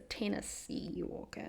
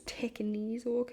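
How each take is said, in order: First: The first word has no k sound. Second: The first word has an added k sound. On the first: The speaker calls it right. "It's a Tennessee Walker" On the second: The speaker calls it wrong. "I said it wrong in the last the last time I said the name of the breed"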